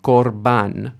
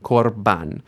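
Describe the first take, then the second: No difference in how they are said.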